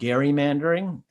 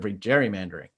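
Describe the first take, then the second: First: It begins with a hard G sound. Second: It begins with a soft J sound.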